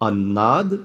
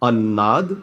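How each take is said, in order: Both takes have the same delivery.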